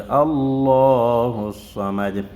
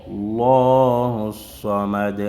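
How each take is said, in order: The two takes are said the same way.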